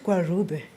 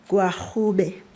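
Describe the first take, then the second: First: The middle consonant is a plain English r. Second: The middle consonant is a breathy h-like sound. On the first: The speaker calls it wrong. "not Gwarube" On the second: The speaker calls it right. "It's Hu"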